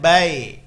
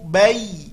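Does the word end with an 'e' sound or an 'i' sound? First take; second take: e; i. First: The word ends with an 'e' sound. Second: The word ends with a clear 'i' sound. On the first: The speaker calls it wrong. "bukan bai" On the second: The speaker calls it right. "hati-hati bunyinya i"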